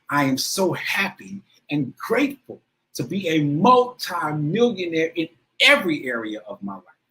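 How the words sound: It is said with strong emotion and feeling.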